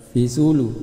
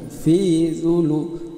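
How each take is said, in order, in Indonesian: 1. Vokal dalam 'fi' pendek. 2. Vokal dalam 'fi' dipanjangkan. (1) "bukan dibaca"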